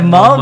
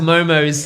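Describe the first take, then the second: First: The word is said in a native way. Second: The word is said in an anglicized way. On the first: The speaker calls it right. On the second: The speaker calls it wrong.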